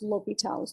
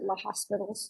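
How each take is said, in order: First: The name is said with no S sound inside. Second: The name is said with an S sound inside. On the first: The speaker calls it right. "but definitely pronounce L'Hôpital's" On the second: The speaker calls it wrong. "Don't don't pronounce it La Hospitals"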